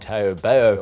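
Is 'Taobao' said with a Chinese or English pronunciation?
English. It is said with a plain English pronunciation.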